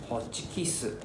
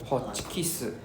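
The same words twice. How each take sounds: The two takes are said the same way.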